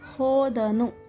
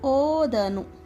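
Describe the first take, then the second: First: The word begins with an h sound. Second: The word begins without an h sound. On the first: The speaker calls it right. "He went" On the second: The speaker calls it wrong. "There is no word called o"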